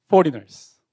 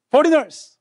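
First: Said in the usual way. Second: Foreigners. punched high and loud; emphatic repeat. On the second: Shown as a demonstration. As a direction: hit Foreigners. hard the second time.

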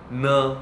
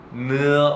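First: 느 as a short relaxed "neo"; casual 느, no drawn-out glide; natural pronunciation. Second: 느 stretched from "eu" into "eo"; basic full pronunciation. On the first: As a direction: say 느 naturally, vowels merged into one. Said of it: "이런 식으로 자연스럽게". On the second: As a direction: say 느 as a full "neu-eo". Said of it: "이게 느가 기본 발음이긴 한데요". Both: Shown as a demonstration.

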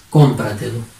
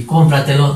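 First: "Cómpratelo" with weight on CÓM, then falling; stress on first syllable. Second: Said in the usual way. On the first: Shown as a demonstration. Teacher answers how it sounds, stressing CÓM in "Cómpratelo". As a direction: hit CÓM at the start of "Cómpratelo". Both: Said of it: "¿Cómo sería?".

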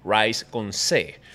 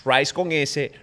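First: "rice" low and drawn out, naming its C. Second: "Rice" held up in pitch, naming its S. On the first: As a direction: slowly drop "rice con C" as second of two. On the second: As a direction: present "Rice con S" as first of two. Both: Shown as a demonstration.

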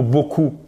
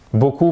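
First: Said in the usual way. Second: "beaucoup" with its silent final P pronounced; sounded final P. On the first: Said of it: "je prononcerais pas le T". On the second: Shown as a demonstration. Teacher imagining a learner reading French, final P sounded in "beaucoup". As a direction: say the written P ending "beaucoup". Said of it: "Pourquoi je dirais pas beaucoup?".

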